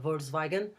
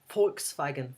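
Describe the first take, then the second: First: It is said with English sounds, V as V. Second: It is said with German sounds, V as F. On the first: "Pronunciation in English will be" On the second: "but in German will be ... v is like a F"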